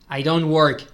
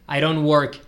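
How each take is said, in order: No difference in how they are said.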